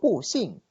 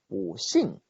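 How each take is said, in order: First: The syllable 'bu' has a falling tone. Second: The syllable 'bu' has a rising tone. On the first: The speaker calls it wrong. "no digo pushing" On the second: The speaker calls it right. "sino pushing"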